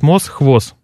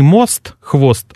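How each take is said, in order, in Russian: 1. Слова заканчиваются на с, без т. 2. Слова заканчиваются на с, за которым идёт т. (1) "Произношение долгого «с» или краткого «с» на месте сочетания «ст»" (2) "не «мост» — «хвост»"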